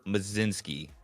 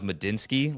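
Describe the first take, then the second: First: The name has no d sound in the middle. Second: The name has a d sound in the middle. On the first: This is how others were heard saying it. "it sounded like they were saying ... Mazinski, almost like the L, O, and D are all just ... silent" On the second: This is how the speaker first assumed it was said. "I thought it was Medinsky, like you just dropped the L"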